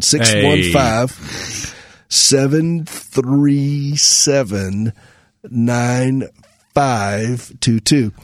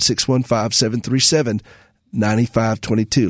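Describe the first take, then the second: First: The number is said more slowly. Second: The number is said at normal speed.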